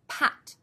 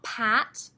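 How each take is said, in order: First: The vowel is short and clipped. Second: The vowel is slightly lengthened. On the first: The speaker calls it right. "They really are short" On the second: The speaker calls it wrong. "Not pat, elongating slightly their short vowel sounds"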